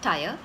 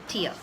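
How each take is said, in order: First: The vowel is the long 'eye' sound. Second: The vowel sounds like 'ear', as in 'tear'. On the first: The speaker calls it wrong. "It's not tire" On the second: The speaker calls it right. "it is Tia"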